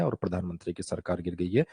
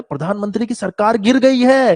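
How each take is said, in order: First: "गिर गई है" read deep and monotone, no emotion at all; deadpan the fall of the government like a bored anchor; much lower, expressionless news line; flat newsreader. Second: "गिर गई है" louder and higher, dramatic news shock; emphatic, much higher mock-dramatic reading; with expression. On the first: Retold or imitated. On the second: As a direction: sell the headline with alarm. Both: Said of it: "थोड़ा तो expression लेकर आओ".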